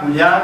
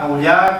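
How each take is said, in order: First: The name is said in its shortest, most compressed form. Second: The name is said somewhat shorter and compressed. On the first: "cada vez lo hace más corto" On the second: "cada vez lo hace más corto"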